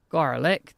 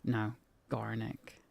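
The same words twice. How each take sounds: First: Bright questioning garlic; mistaking Garnick for Garlic?; mock mishearing. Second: Soft, slow Garnick with a hard G; quiet correction, Garnick; correcting to Garnick. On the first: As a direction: say Garlic? with a rise. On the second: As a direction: pronounce it Garnick, not garlic. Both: Shown as a demonstration.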